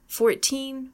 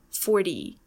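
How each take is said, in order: First: Put-on fourteen with a crisp T, TEEN pitched higher; hard T and long ee in fourteen; true T in teens. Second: Forty with a D-like T, falling; flapped T in tens. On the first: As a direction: lift the end of fourteen on a clear "TEEN". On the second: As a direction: say forty as "fordy". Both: Shown as a demonstration. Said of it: "They sound completely different".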